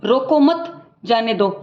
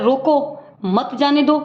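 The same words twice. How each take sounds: First: Slow, "रोको मत" joined, break, "जाने दो"; pause after मत. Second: Slow, "रोको", break, then "मत जाने दो"; pause after रोको. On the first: Teacher contrasting the second reading, pause after "मत". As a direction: say "रोको मत" as one, stop, then "जाने दो". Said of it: "फ़र्क है तो विराम चिन्हों का है". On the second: Teacher recapping the first reading, pause after "रोको". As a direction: stop after "रोको" and keep "मत जाने दो" joined. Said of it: "मतलब पहले में बोल रहे हैं". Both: Shown as a demonstration.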